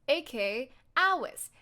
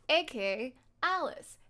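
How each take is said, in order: Both takes have the same delivery.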